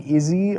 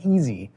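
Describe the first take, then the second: First: It begins with a short 'ih' vowel. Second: It begins with a long 'ee' vowel. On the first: The speaker calls it wrong. "up to a few days ago, I was saying Izzy" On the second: The speaker calls it right. "I've since learned that it is pronounced easy"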